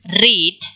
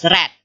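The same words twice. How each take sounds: First: The vowel is long, as in 'reed'. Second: The vowel is short, as in 'red'. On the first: It is the present-tense verb. "The verb one is pronounced as read" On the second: It is the past-tense form. "The past form is pronounced as read"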